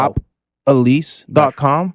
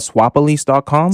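First: It is said slowly and deliberately. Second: It is said at normal conversational speed.

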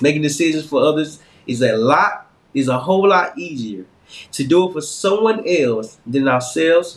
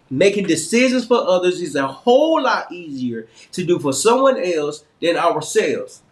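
First: It is read with little emphasis. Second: It is read with strong emphasis.

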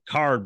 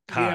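First: The word is said with the r sound pronounced. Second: The word is said with the r sound dropped.

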